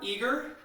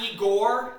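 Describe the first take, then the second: First: The name ends with a 'ger' sound. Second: The name ends with a 'gor' sound. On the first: The speaker calls it right. "it's eager. Just like the word you said" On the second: The speaker calls it wrong. "Not Igor"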